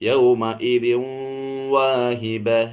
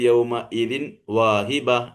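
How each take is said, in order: First: The n merges into the w with nasalization. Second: The n is pronounced clearly before the w. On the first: The speaker calls it right. "എന്നാ പറയാ" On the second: The speaker calls it wrong. "വെളിവാക്കിയിട്ട് ... എന്നല്ല പറയാ"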